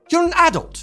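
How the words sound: It is said with a British pronunciation. "In the U K"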